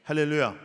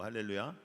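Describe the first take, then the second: First: 할렐루야 called out loud, falling; shouted hallelujah. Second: Said in the usual way. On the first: Real, not acted. Preacher proclaiming 할렐루야 to the congregation, loud. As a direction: proclaim 할렐루야 with full force.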